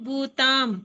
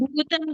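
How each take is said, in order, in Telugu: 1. చివరి అక్షరంలో దీర్ఘం ఉంది. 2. చివరి అక్షరంలో హ్రస్వం ఉంది. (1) "తాకి దీర్ఘం ఉంది" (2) "భూతం గాదు"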